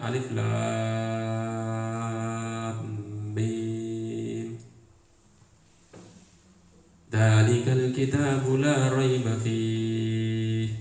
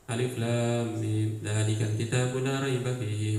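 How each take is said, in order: First: The words are recited slowly and deliberately. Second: The words are recited quickly without pausing. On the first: Each word is reflected on while reading. "Dengan yang bacanya pelan-pelan" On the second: More verses are read in the same time. "baca dengan cepat"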